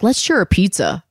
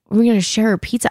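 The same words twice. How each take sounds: First: Said in the usual way. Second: Higher, disbelieving repeat of his words; incredulous echo. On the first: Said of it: "and he was like". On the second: Retold or imitated. She repeats the date's pizza plan in mild mock disbelief. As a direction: echo him as if it's absurd. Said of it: "And I was like".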